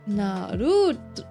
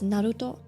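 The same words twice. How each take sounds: First: The stress falls on the second-to-last syllable. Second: The stress does not fall on the second-to-last syllable. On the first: This is how Germans say it. "In Germany, it's like Naruto" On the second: This is how it is said in Japanese. "in Japanese, it's Naruto"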